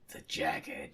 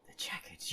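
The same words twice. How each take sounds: First: The Jagged said low and dramatic; dramatic name drop. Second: The Jagged whispered, no voice; whispered title. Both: Shown as a demonstration. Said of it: "the Jagged up next".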